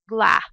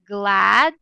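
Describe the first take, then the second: First: The final d sound is dropped. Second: The final d sound is clearly heard. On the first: The speaker calls it wrong. "So we cannot just say gla" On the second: The speaker calls it right. "we have to make sure that uh, the and t sounds are heard"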